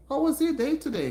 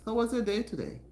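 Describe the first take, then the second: First: High, loud and eager question; excited host asking the room; bright excited greeting. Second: Said in the usual way. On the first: Real, not acted. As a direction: lift it up to greet the chat warmly. Cheerful greeting to live viewers.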